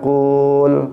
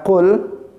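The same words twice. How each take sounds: First: The vowel is drawn out long. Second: The vowel is short. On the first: The speaker calls it wrong. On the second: The speaker calls it right.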